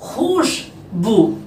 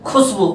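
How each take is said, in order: First: खुशबू drawn out very slowly with a throaty x and sh; correct khushbu. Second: खुशबू said as plain k-s khusbu, the common mistake; wrong khusbu. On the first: Teacher modelling correct खुशबू very slowly for pupils. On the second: Teacher imitating pupils' wrong खुशबू as khusbu. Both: Shown as a demonstration. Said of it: "तो खुशबू नहीं है".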